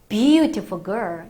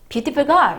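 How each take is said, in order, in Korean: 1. 첫 음절은 세고 길게 늘어나요. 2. 첫 음절은 평평하고 짧아요. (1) "이렇게 들어가셔야겠죠" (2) "이게 아니라"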